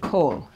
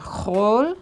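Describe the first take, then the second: First: The word starts with a hard k sound. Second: The word starts with a raspy throat sound. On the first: "with a kaf" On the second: "with a chaf"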